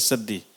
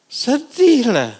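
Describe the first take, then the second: First: Much softer, lower and falling; hushed sad. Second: Mournful exclaim. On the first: Preacher telling of tearful parents on the road, soft and falling. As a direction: let the word sink away. Sadness on the journey. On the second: Preacher describing parents leaving their crying child, slow mournful lament. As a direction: stretch out the sorrow. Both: Acted.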